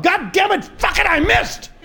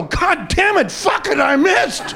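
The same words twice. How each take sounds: First: High yelled curse at the missed shot; angry shout. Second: Booming high yell from the sky; God's voice cursing. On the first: Golfer shouting at his missed swing in fury. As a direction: yell it, furious at the ball. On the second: God shouting down from the sky after missing the golfer. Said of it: "hears a voice go". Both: Acted.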